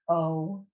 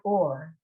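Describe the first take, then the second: First: The vowel ends plainly with no 'r'. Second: The vowel is followed by an 'r' sound. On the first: The speaker calls it right. "It's o" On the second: The speaker calls it wrong. "It's not or"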